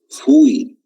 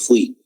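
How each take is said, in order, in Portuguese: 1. É pronunciada do jeito português. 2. É pronunciada do jeito espanhol. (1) "em português é a mesma escrita, mas se pronuncia diferente" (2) "em espanhol falamos fui"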